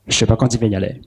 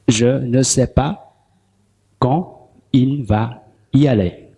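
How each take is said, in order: First: It is said fast, with reduced words. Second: It is said slowly, every word full.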